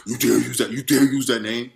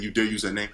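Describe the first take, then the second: First: Mild mock roar of a furious devil; imitating the devil's intimidating yell; roaring demon voice. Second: Said in the usual way. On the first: Shown as a demonstration. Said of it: "a roaring, yelling, a very intimidating, like, voice". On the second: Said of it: "saying it as if he said it that proper".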